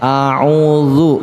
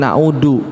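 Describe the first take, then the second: First: The middle consonant is a buzzing 'dz' sound. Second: The middle consonant is a plain 'd' sound. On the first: The speaker calls it right. "A'udzu, bukan a'udu" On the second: The speaker calls it wrong. "bukan a'udu"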